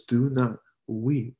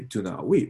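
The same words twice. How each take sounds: First: Put-on slow, gentle "Do not weep" spoken like soothing a hurt child; gentle comfort. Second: "Do not weep" lifted into a doubtful rising question; incredulous quote. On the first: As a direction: ease "Do not weep" out slowly and tenderly. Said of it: "He says". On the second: Retold or imitated. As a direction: ask "Do not weep" as if it sounds absurd to say. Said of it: "why would I go up to you and say".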